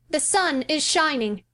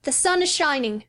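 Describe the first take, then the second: First: High, slow, solemn chant; chanted, draw the spell out slowly. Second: Put-on high, solemn boy's chant; chanted, intone it like a spell. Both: A narrator's reading. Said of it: "the chanting voice".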